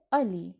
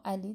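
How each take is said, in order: First: "آلی" opening on a long back "aa"; Turkish pronunciation. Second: "علی" with a short front a, as in Persian; Persian pronunciation. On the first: («آلی» با آ، به تلفظ ترکی) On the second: («علی» با فتحه، به تلفظ فارسی) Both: Shown as a demonstration.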